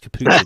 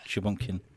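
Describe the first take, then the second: First: The word begins with a 'k' sound. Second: The word begins with an 'sh' sound. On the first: The speaker calls it right. "It's capuchin" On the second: The speaker calls it wrong. "I pronounced it wrong though"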